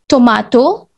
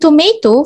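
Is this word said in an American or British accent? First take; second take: British; American. First: It is said in a British English accent. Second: It is said in an American English accent. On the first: "tomato for English" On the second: "tomato for American"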